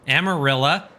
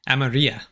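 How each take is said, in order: First: The double L is sounded like an English L. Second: The double L is sounded like an English Y. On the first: The speaker calls it wrong. "aggressively Anglo-American pronunciation" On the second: The speaker calls it right. "Double L is more like a Y"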